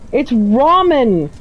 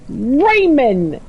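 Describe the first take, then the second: First: The word is said as ramen, without a d. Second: The word is said like the name Raymond. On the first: The speaker calls it right. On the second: The speaker calls it wrong. "Raymond is the very incorrect pronunciation"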